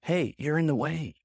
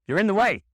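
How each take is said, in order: First: Said in the usual way. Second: Loud, high, sharp complaint; raised-voice, impatient outburst; forceful demand. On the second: Shown as a demonstration. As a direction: shove them aside with your voice. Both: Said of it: "be very careful about the way you say things".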